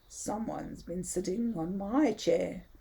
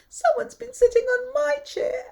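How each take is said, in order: First: It is said in a deep growl. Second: It is said in a small whimpering voice.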